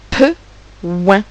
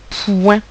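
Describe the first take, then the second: First: Pe short, pause, then ouin alone; separated sounds. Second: Said in the usual way. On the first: Shown as a demonstration. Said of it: "Il y a également deux sons".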